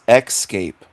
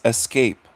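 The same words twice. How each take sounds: First: The word begins with an 'ex' sound. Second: The word begins with an 'es' sound. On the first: The speaker calls it wrong. "You're pronouncing the word wrong" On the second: The speaker calls it right. "It's escape. E S C A P E, not E C or E X"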